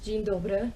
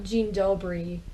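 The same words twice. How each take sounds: First: The final y sounds like uh. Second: The final y sounds like ee. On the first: The speaker calls it right. "it's Dzień dobry" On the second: The speaker calls it wrong. "It's not Dzień dobry"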